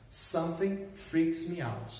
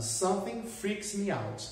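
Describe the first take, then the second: First: Slower repeat. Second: Said in the usual way. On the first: Shown as a demonstration.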